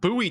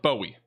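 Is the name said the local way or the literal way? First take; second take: local; literal. First: The name is said the actual local way. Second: The name is said the literal, written-out way. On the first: This is how the town's name is actually said. "You got Bowie, Texas" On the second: This is how the name appears it should be said. "It looks like Bowie"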